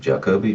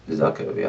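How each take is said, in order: First: The name begins with a J sound. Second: The name begins with a Z sound.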